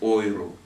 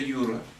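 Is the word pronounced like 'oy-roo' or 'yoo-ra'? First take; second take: oy-roo; yoo-ra. First: The word starts with an 'oy' sound. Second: The word starts with a 'yoo' sound. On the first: "по-немецки или по-западному ойру" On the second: "А когда по-английски говоришь, то это Юра"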